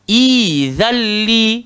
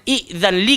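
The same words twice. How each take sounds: First: The first vowel is long, with no glottal stop. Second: A glottal stop follows the short first vowel. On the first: The speaker calls it right. "kita badalkan dia jadi izalli" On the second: The speaker calls it wrong. "Daripada izalli"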